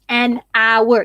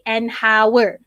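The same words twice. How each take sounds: First: The h sound at the start is silent. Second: The h sound at the start is pronounced. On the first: The speaker calls it right. "you don't make the sound uh, of the H" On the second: The speaker calls it wrong. "You don't say"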